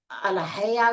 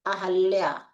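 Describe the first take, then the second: First: अलहया as slow "a-la-hay-aa"; wrong form, sounds swapped. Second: अहल्या as "a-hal-yaa"; correct form without i. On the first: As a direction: say अलहया with l before h. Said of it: "भी नहीं होता है". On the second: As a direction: say अहल्या with h before a held l. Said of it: "क्या होता है?". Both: Shown as a demonstration.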